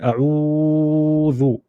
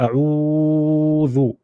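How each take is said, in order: First: The vowel is lengthened for a long time. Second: The same.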